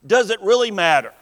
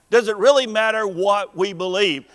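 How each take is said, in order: First: Fast, stress on Does, falling at the end; quick rhetorical question. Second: "really" leaned on, falling at the end; stress on really. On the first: Preacher asks the church, quick with stress on Does. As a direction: toss out "Does" quickly as a challenge. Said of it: "rhetorical question, repeated at once". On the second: Preacher repeats to the church, leaning on really. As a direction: press the word "really" to make them think. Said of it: "same question, stretched out". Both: Acted.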